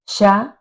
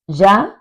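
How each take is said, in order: First: The syllable begins with a sh sound. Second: The syllable begins with a y sound. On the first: "as in some parts of Argentina" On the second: "It's the same sound when we pronounce the double L"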